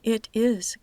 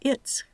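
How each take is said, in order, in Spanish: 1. El verbo en forma completa tiene una s sonora. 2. La contracción termina en una s sorda. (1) "con la S sonora" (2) "con la S sorda"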